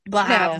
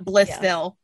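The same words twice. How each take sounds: First: The name is said in a clipped, reduced local way. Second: The name is said fully, just as it's spelled. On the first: The speaker calls it right. "like you've never read a fucking word in your life" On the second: The speaker calls it wrong. "Not Blytheville"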